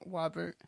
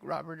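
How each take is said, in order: First: The word begins with a W sound instead. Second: The word begins with a normal R sound. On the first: "or something like Wobbert" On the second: "if you just say like Robert"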